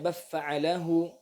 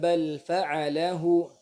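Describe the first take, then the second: First: The l merges into the following f sound. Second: The l is pronounced clearly before the f. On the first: The speaker calls it wrong. "tidak dibaca" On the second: The speaker calls it right. "dia dibaca dan izhar"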